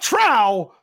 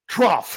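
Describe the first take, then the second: First: The word ends without an f sound. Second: The word ends with an f sound. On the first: The speaker calls it wrong. "Not trow" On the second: The speaker calls it right. "It is pronounced trough"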